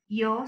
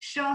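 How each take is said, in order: First: The word begins with a 'y' sound. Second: The word begins with a 'sh' sound. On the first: This is how most Spanish speakers say it. "all other countries say" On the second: This is how speakers from Argentina say it. "in Argentina, we pronounce the Y and the double L as sh sound"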